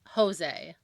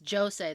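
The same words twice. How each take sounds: First: The name is pronounced the Spanish way. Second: The name is pronounced the Portuguese way, with J. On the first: "it's Jose in Spanish" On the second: "in Portuguese, it's Jose. They say the J"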